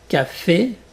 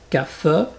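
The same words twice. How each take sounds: First: The final vowel is a closed é sound. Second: The final vowel is not a closed é sound. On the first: The speaker calls it right. "Je répète" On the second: The speaker calls it wrong. "Et pas"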